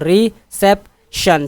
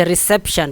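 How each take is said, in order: First: reception slowly in three beats, सेप stressed; stress on second syllable. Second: Said in the usual way. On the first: Shown as a demonstration. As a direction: break up reception and hit सेप. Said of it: "दूसरे पर जोर है ज़्यादा". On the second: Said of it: "दूसरे पर, अ, syllable पर जोर".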